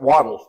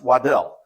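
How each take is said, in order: First: The name sounds like the word 'waddle'. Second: The name is said as its spelling suggests. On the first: This is how the man himself said his name. The speaker calls it right. "he pronounced it Waddle, like what a duck does" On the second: This is how the spelling suggests it is said. The speaker calls it wrong. "it looks like it should be pronounced Waddell"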